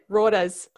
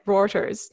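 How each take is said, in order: First: It is said in a Queensland accent. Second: It is said in her usual accent.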